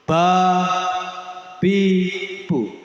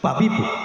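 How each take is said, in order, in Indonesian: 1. Suku katanya diucapkan lambat dan terpisah. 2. Suku katanya diucapkan cepat dan menyambung.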